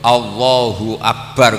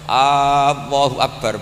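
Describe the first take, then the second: First: The first vowel is short and crisp. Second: The first vowel is drawn out long. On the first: It is a firm statement that God is greatest. The speaker calls it right. "kudu tegas" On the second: It becomes a question about whether God is greatest. The speaker calls it wrong. "sekali dipanjangkan maknanya istifham"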